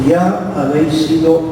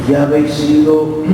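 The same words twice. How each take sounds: Both takes have the same delivery.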